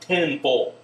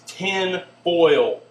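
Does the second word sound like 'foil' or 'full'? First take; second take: full; foil. First: The second word sounds like 'full', without 'oy'. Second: The second word has an 'oy' vowel, like 'foil'. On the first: The speaker calls it wrong. "not tin full" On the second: The speaker calls it right. "It's tin foil"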